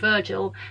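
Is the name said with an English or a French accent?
English. The name is said with an English accent. The speaker calls it wrong. "if I was to read it in my accent"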